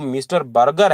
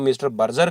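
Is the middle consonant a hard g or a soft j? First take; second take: hard g; soft j. First: The name has a hard g sound. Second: The name has a soft j sound. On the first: "मैं mister बर्गर के नाम से ही उनको अ, pronounce करता हूँ" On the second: "या फिर आप उसको मिस्टर बर्जर कहिएगा"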